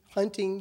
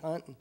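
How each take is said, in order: First: The word ends with a full 'ing' sound. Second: The word ends with a clipped 'in' sound. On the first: "You don't say" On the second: "you say"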